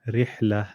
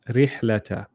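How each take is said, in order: First: The word ends without the final 'ta' syllable. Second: The word ends with a final 'ta' syllable. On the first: The reader stops on this word. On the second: The reader continues on without stopping.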